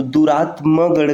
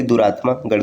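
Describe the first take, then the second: First: दुरात्मा गढ़ with short final "ma"; correct form. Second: दुरात्मा गढ़ with long "maa"; wrong form. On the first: Teacher giving the correct form, short "ma" in दुरात्मा गढ़. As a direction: say दुरात्मा गढ़ as "duraatma-garh", short vowel. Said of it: "कहना शुद्ध है". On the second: Teacher citing the rejected form, long "maa" in दुरात्मा गढ़. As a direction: say दुरात्मा गढ़ as "duraatmaa-garh". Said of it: "न कि". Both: Shown as a demonstration.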